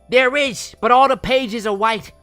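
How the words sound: It is read in a fun put-on narrator voice.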